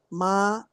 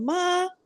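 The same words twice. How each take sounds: First: The syllable is said on a low pitch. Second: The syllable is said on a high pitch. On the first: "tono más bajo" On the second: "de tono alto"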